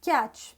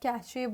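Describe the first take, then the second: First: The word is said with one syllable. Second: The word is said with two syllables. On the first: The speaker calls it right. "it is pronounced as catch" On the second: The speaker calls it wrong. "जिसको आप कैचे बोलते हैं"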